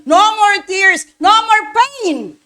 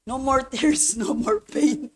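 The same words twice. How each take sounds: First: Each word drawn out and stretched, louder; slow preached refrain. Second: A quiet, laughing echo of the refrain; soft repeated refrain. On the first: Pastor preaching the refrain to the congregation, slow and emphatic. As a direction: lean on every word slowly. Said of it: "preached refrain". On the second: Pastor wishing to cry, refrain soft with a little laugh. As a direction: let it fall away almost to yourself. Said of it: "ba't hindi pa rin ako makaiyak". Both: Real, not acted.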